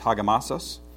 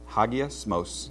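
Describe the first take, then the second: First: The middle sounds like 'gama' with no 's' cluster. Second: The middle sounds like 'gias' with an 'sm' cluster. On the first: The speaker calls it wrong. "I mispronounced that" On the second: The speaker calls it right. "There we go"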